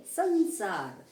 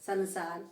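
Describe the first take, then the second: First: संसार louder, first syllable held in the nose; nasal pronunciation. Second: संसार as "sa-na-saar"; wrong pronunciation. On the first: Teacher correcting the error, संसार loud with a nasal first syllable. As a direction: say संसार as an emphatic nasal "san-saar". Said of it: "नाक से बोला गया". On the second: Teacher rejecting the error, संसार with an un-nasalised n. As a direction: say संसार with a full separate N. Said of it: "संसार नहीं". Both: Shown as a demonstration.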